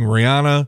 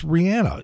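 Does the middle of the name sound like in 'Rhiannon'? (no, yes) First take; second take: no; yes. First: The middle vowel does not sound like 'Rhiannon'. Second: The middle vowel sounds like in 'Rhiannon'. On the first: The speaker calls it wrong. "For years, people have been saying Rihanna" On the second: The speaker calls it right. "it's [name]. You know, like the song Rhiannon"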